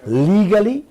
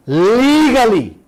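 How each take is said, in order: First: Legally, each syllable leaned on with a lifting end; stressing legally. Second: Legally, slow, high and louder, falling; stressed legally. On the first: To the viewers, pointedly stressing Legally. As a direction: put weight on Legally, let it rise. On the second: Mocking leaders' schemes, hammering home legally slowly. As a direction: land hard on legally, drawn out. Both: Shown as a demonstration. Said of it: "You hear how I'm emphasizing that word?".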